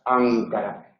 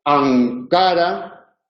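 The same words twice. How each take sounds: First: Ankara softly, N back in the throat; soft velar demo. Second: Ankara slow, N pulled back to the velum; velar N demo. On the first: Teacher repeating Ankara to show the velar N. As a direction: say Ankara quietly, tongue pulled back. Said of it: "la lengua ... hacia atrás". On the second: Teacher demonstrating the velar N in Ankara. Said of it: "Si la consonante es velar y decimos". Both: Shown as a demonstration.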